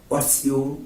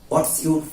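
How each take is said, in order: The two takes are said the same way.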